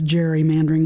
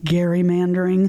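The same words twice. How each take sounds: First: The word begins with a soft G sound. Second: The word begins with a hard G sound. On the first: This is how the term is commonly said now. "with the softer G sound" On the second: This is how the term was first said. "it's said that it was pronounced gerrymandering"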